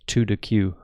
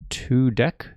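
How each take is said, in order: First: The name ends with the sound 'queue'. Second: The name ends with the sound 'deck'. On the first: "I've sometimes been reading it as" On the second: "the way you pronounce it is a deck"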